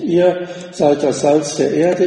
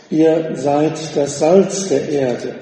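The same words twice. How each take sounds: First: „Ihr“ as the most prominent word; stress on Ihr. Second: Said in the usual way. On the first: Shown as a demonstration. Preacher showing the emphasis of the original text, stress on „Ihr“. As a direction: hit „Ihr“ first, let the rest follow. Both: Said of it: "Ihr, das ist im Grundtext betont".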